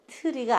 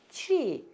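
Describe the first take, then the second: First: It is said with Korean-style syllables. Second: It is said with English-style sounds. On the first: The speaker calls it wrong. "우리 이거 트리 이렇게 배웠는데 트리가 아니고" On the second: The speaker calls it right. "tree 이렇게 읽으셔야 되는 거예요"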